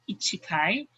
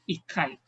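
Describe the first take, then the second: First: The word has four syllables with a full vowel. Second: A held double consonant replaces the middle vowel. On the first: The speaker calls it wrong. "We don't say ichikai" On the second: The speaker calls it right. "It will turn to ikai"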